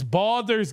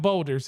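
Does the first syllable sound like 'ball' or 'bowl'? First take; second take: ball; bowl. First: The first syllable sounds like 'ball'. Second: The first syllable sounds like 'bowl'. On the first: The speaker calls it right. "It's Baldur's Gate" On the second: The speaker calls it wrong. "not Boulders"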